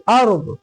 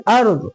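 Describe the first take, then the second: The two takes are said the same way.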